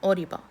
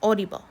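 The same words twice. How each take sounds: Both takes have the same delivery.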